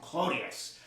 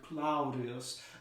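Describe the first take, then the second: First: The first vowel is a plain 'oh' sound. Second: The first vowel is an 'ow' diphthong. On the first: This is how a common Roman would say it. "would just sort of turn it into an O sound" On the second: This is how an upper-class Roman would say it. "Roman patrician would say something like Claudius"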